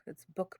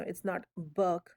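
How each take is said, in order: First: "book" said quick with a short oo; proper short oo. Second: "book" stretched with a strong uh vowel; exaggerated uh. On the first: Teacher to students, showing the right short "book". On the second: Teacher to students, overdoing the uh in "book". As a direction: lean hard on the uh in "book". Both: Shown as a demonstration. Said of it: "I'm just emphasizing here".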